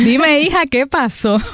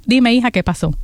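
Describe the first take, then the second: First: Higher, amused replay of the pastor; a higher echo of the pastor's greeting; mimicking the pastor. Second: Said in the usual way. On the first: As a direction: replay her line higher, delighted. Repeats pastor's line amused.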